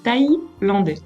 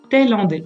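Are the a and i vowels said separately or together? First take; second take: separately; together. First: The a and i are said as separate vowels. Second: The a and i merge into one vowel sound. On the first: The speaker calls it right. "il est thaïlandais" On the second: The speaker calls it wrong. "et pas thaïlandais"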